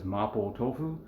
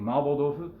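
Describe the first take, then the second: First: The dish name is pronounced the familiar English way. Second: The dish name is pronounced the Japanese way. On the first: "what you guys might be more familiar with" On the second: "that's the Japanese way of pronouncing"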